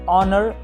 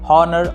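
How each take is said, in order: First: The word starts with a vowel sound. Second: The word starts with an h sound. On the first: The speaker calls it right. "सही pronunciation होगी" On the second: The speaker calls it wrong. "पढ़ने की गलती मत कीजिएगा"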